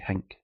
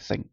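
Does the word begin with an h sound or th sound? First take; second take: h sound; th sound. First: It begins with an h sound. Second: It begins with a th sound.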